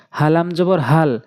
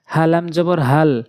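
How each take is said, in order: Both takes have the same delivery.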